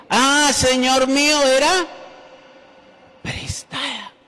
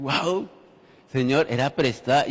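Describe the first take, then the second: First: High, loud anguished cry; desperate cry. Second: Said in the usual way. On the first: A narrator's reading. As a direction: cry out in dismay over the lost axe. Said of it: "y gritó diciendo". (grito angustiado, agudo y fuerte) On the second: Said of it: "el hombre estaba en esta situación".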